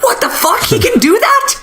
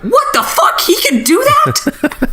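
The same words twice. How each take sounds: First: Shrieked much higher in hammed-up disbelief; high mock surprise; mock shock. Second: Very high, slowed, with a laugh; laughing disbelief. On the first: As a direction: squeak it in cartoon astonishment. Characters shocked, retold. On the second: Retold or imitated. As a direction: stretch it out, giggling in disbelief. Hosts' own reaction, replayed.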